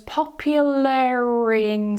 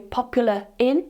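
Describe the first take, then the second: First: An R sound links popular to in. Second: No R sound links popular to in. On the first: The speaker calls it right. "Notice now I'm adding that linking R" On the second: The speaker calls it wrong. "we're not going to say popular in, because it's like uh, uh"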